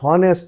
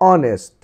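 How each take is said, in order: First: The word starts with an h sound. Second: The word starts with a vowel, no h. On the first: The speaker calls it wrong. "এটি হনেস্ট নয়" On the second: The speaker calls it right. "এইচ এর উচ্চারণ silent থাকবে এখানে"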